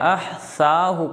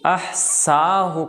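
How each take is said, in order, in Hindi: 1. बीच का व्यंजन एक नरम th ध्वनि है। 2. बीच का व्यंजन एक साधारण पतला स है। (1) "सा" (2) "सीन"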